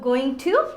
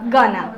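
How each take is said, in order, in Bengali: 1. দুটো শব্দই পূর্ণভাবে ও আলাদা আলাদাভাবে বলা হয়। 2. শব্দ দুটো মিশে একটি ছোট শব্দে পরিণত হয়। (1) "গোয়িং টু কে আমরা বলি গনা" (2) "তখনই আমরা বলি গানা"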